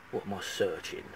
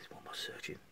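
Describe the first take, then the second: First: Quiet, indignant mutter; muttered to himself. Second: Barely voiced whisper; whispered to himself. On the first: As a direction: grumble it under your breath. Muttering over the rude question. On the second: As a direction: breathe the question under your breath. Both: Real, not acted.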